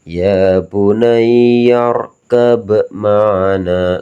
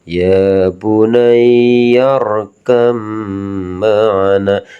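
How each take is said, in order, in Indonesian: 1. Huruf b dibaca terpisah sebelum m. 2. Huruf b melebur ke bunyi m setelahnya. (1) "nggak bisa dibaca ... nggak boleh" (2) "Ba ini melebur"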